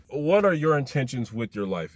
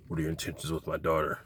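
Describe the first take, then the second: First: Said in the usual way. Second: Lightly voiced stern father; low quick mock dad question; gruff overprotective dad. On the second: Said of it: "he's like".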